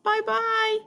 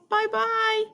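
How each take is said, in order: First: It is said in a medium-pitched voice. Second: It is said in a medium-pitched voice.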